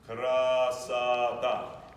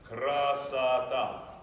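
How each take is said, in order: No difference in how they are said.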